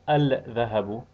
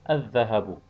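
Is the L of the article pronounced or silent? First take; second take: pronounced; silent. First: The L sound is clearly pronounced before dh. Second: The L sound is silent, merged into dh. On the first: The speaker calls it wrong. "Instead of saying" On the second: The speaker calls it right. "you're supposed to say"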